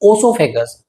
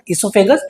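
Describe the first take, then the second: First: The word begins with an 'oh' sound. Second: The word begins with an 'ee' sound. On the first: The speaker calls it wrong. "Not ओसोफेगस, ओ का pronunciation नहीं करना है" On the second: The speaker calls it right.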